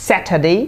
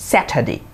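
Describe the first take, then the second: First: Saturday as "SAT-ə-day"; "day" ending. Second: Saturday as "SAT-ə-dee", dropping; "dee" ending. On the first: (শেষে "ডে" উচ্চারণে) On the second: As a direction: end Saturday on a short "di". (শেষে "ডি" উচ্চারণে) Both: Shown as a demonstration. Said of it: "Saturday or Saturday".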